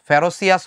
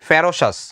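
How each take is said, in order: First: The word has an extra 'ee-us' ending, four syllables. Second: The word ends in a short 'shus', three syllables. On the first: The speaker calls it wrong. "ফেরোসিয়াস হবে না" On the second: The speaker calls it right. "এটার উচ্চারণটা হবে ফেরোসাস"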